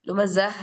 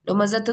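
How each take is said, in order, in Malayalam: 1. ഈ വാക്ക് h ശബ്ദത്തിലാണ് അവസാനിക്കുന്നത്. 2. ഈ വാക്ക് t ശബ്ദത്തിലാണ് അവസാനിക്കുന്നത്. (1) "ലുമസഹ് എന്നല്ലേ" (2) "ലുമസത്ത് എന്ന് വായിക്കൂലല്ലോ"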